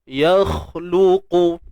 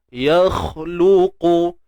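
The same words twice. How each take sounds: No difference in how they are said.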